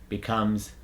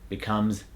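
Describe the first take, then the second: The two takes are said the same way.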